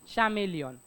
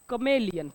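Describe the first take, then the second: First: The word begins with a ch sound. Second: The word begins with a k sound. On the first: The speaker calls it wrong. "स्पेलिंगचा विचार जर केला तर तुम्ही याला म्हणाल चॅमेलियन" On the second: The speaker calls it right. "But it's कमेलियन"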